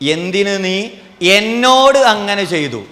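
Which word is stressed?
എന്നോട്. The stress falls on the word എന്നോട്. Whom it was done to is the issue. "എന്നോട് ചെയ്തതാ പ്രശ്നം"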